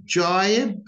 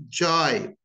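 First: "Jibe" with a full, clear British diphthong; British pronunciation. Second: "jibe" cut short in the American way; American pronunciation. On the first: Teacher showing learners the British accent. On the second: Teacher showing learners the American accent. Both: Shown as a demonstration. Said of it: "Notice the difference".

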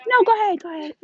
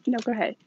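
First: Real polite sing-out to someone nearby; high-pitched polite insistence. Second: Said in the usual way. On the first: Real, not acted. Shopper waves another person ahead, high polite insistence.

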